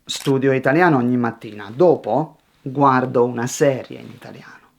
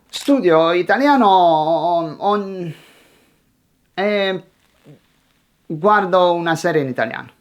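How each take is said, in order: First: Complete each idea, pause, then the next; steady, tidy sentences with a clean break; composed delivery without hesitation; one finished thought. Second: Halting learner abandoning the sentence; unfinished thought. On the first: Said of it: "Finish one thought before starting the next". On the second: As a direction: stall mid-sentence, then rush to the next idea. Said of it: "you never finish them". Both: Shown as a demonstration.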